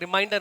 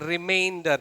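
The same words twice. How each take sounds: First: It is said like the word 'reminder'. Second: It is said like the word 'remainder'. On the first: The speaker calls it wrong. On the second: The speaker calls it right.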